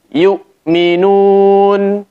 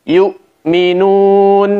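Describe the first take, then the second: The two takes are said the same way.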